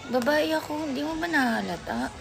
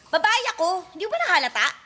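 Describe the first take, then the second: First: It is said in a sad tone. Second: It is said in an angry tone.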